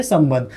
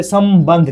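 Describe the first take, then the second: First: Said in the usual way. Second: संबंध drawn out as "sam-bandh", m held; careful m sound. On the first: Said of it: "क्या पढ़ते हैं". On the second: Shown as a demonstration. Teacher shows the dot read as m, careful pronunciation. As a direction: split संबंध after a long, clear m. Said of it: "हम लोग क्या पढ़ते हैं".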